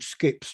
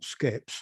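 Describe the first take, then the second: First: The vowel sounds like the one in 'sip'. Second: The vowel sounds like the one in 'set'. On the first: This is how an older relative said it. "My grandmother said skips" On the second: This is the usual form of the word. "not skeps"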